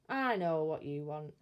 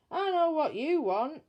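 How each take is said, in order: First: Low, confident guess; knowing burglar. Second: High and loud, knowing and fed up; exasperated burglar. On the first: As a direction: tell the baby you've got it figured. Bill guesses baby's need. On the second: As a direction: announce it with a groan of resignation. Bill guesses baby needs changing. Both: Acted.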